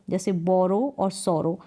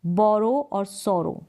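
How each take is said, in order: First: Said in the usual way. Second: बोरो और सोरो said slowly with a rounded बो and सो; slow rhyme demo. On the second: Shown as a demonstration. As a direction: model बोरो और सोरो carefully. (धीरे उच्चारण करके दिखाना)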